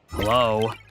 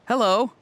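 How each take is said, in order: First: It is said in a frustrated tone. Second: It is said in a happy tone.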